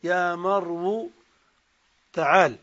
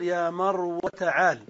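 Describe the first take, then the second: First: يا مرو with واو in damma, marwu; مرو in the non-waiting form; non-waiting dialect. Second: يا مرو with واو in fatha, marwa; مرو kept as in مروان; waiting dialect. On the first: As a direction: say مرو ending in u. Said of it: "وعلى لغة من لا ينتظر". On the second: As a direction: say مرو ending in short a. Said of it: "تقول على لغة من ينتظر". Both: Shown as a demonstration.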